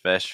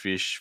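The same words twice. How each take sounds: First: The vowel is a short, relaxed 'i'. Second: The vowel is tense, leaning toward 'ee'. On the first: The speaker calls it right. "Watching out for that short eye" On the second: The speaker calls it wrong. "we're getting a little bit more into like fish"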